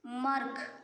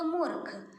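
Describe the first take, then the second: First: मर्ख read with a short a, no u sound; मर्ख said flat as misspelt; wrong spelling read out. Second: मूर्ख with a long oo in the first syllable; मूर्ख said the right way after the fix; corrected word. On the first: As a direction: say मर्ख as mark-h, missing the ऊ. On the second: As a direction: stretch the ऊ in मूर्ख. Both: Shown as a demonstration. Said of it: "मर्ख का मैं मात्रा लगाई हूँ तो मूर्ख".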